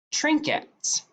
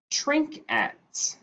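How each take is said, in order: First: Said in the usual way. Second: "trinket" as trink, slight break, et; split into syllables. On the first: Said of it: "The word is". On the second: Shown as a demonstration. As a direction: separate the two syllables of "trinket". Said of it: "a two-syllable word".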